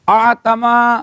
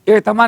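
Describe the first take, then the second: First: The word begins with an open 'a' vowel. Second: The word begins with an 'e' vowel. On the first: The speaker calls it right. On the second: The speaker calls it wrong. "उस एतमा नहीं पढ़ना, फर्क है।"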